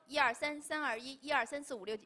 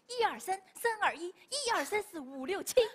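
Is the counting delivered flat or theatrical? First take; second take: flat; theatrical. First: The counting is spoken plainly without acting. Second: The counting is spoken with theatrical expression. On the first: It is simply recited. "我们可能是一直说" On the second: It is performed for the audience. "他有点演的成分在里面"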